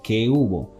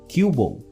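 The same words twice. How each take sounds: First: The two words are said fully and separately. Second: The two words are shortened and run together. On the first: "Instead of" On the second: "people pronouncing the last one as"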